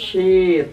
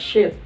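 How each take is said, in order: First: The vowel is held long. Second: The vowel is cut short. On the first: A sheet of paper. The speaker calls it right. "panjang dia kan" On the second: It sounds like a different, rude word. The speaker calls it wrong. "kalau kita baca pendek"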